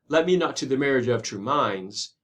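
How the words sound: True is thrown away and minds is stressed. The speaker calls it right. "Maybe you would throw away true and emphasize minds"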